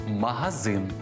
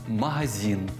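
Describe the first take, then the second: No difference in how they are said.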